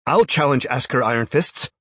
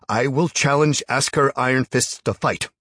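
First: Loud, high challenge; shouting. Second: Loud, high, deliberate challenge; firm loud repeat. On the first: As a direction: shout it to the whole cavern. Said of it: "he shouted again". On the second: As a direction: repeat it, louder and firmer. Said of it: "he repeated". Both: A narrator's reading.

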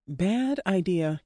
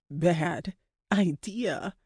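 First: Said in the usual way. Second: Very slow, each word stretched; drawn-out emphasis. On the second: A narrator's reading. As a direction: stretch out BAD and IDEA with a gap between.

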